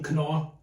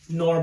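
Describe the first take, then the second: First: The name is said in a German pronunciation. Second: The name is said in an English pronunciation.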